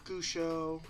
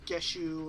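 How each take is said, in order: First: The name begins with a plain 'goo' sound. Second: The name begins with a 'geh' sound. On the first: "they'd say Gusho or Geshu or whatever" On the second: "they'd say Gusho or Geshu or whatever"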